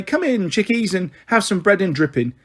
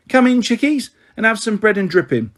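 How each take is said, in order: First: Put-on a boy lightly copying his mother's cheery welcome, voice lifted; singsong imitation of mum's greeting, only a hint of her; mimicking his mum. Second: A hint of a cheery, homely mother calling the children in; welcoming and bright, a little higher; motherly welcome. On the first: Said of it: "She'll just say". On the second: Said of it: "she said".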